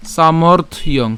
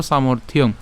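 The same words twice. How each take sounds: First: "সামর্থ্যং" broken before its last syllable; split pronunciation. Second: "সামর্থ্যং" said as one unbroken word; joined pronunciation. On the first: Teacher breaking down the word, "সামর্থ্যং" in two parts. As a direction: say সামর্থ, small break, then ইয়ং for সামর্থ্যং. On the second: Teacher joining it up, "সামর্থ্যং" pronounced in one go. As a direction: run সামর্থ and ইয়ং together in সামর্থ্যং. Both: Shown as a demonstration. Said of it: "একসাথে উচ্চারণ করবো".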